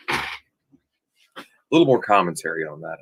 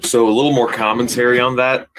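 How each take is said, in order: First: Lightly put-on voice. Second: Said in the usual way. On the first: Shown as a demonstration. Host repeating his line in a slow, low mock voice. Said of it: "repeats the line". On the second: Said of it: "repeats it in another voice".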